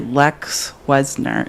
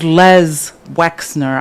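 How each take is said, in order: First: The 'ks' sound comes in the first name. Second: The 'ks' sound comes in the last name. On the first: The speaker calls it wrong. "I always say it the opposite. I invert the X and the S" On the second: The speaker calls it right. "It's Les Wexner"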